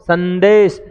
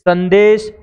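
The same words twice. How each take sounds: Both takes have the same delivery.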